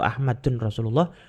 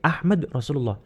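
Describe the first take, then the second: First: The first word ends with an added 'un' sound. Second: The first word ends on a bare 'd' sound. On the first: The speaker calls it wrong. "atau Ahmadun Rasulullah" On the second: The speaker calls it right. "tapi Ahmad Rasulullah"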